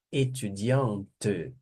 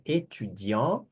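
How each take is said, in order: First: Étudiante stretched very slowly, the T clearly spoken before the final vowel; final T sounded. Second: Étudiant said slowly, ending on the nasal vowel with no T sounded; final T silent. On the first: Teacher showing students the sounded feminine T, drawn out. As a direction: land on the T of étudiante. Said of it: "Aí pronuncia, porque tem a vogal aqui". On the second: Teacher showing students the silent masculine T, slow and careful. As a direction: drop the T in Étudiant. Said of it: "No masculino não pronuncia o T". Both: Shown as a demonstration.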